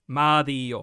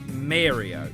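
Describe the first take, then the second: First: The name is said with an Italian accent. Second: The name is said with an American accent. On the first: The speaker calls it right. "The correct way of saying it, at least from my knowledge, being half Italian" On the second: The speaker calls it wrong. "the American way of saying it"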